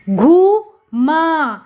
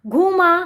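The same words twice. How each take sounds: First: घूमा very slowly, as घू … मा; syllable by syllable. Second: Said in the usual way. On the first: Shown as a demonstration. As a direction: stretch and separate both syllables of घूमा. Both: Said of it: "जोड़कर पढ़ेंगे".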